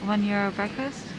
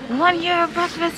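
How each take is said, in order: First: It is said in a plain, calm tone. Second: It is said in an excited, lively tone.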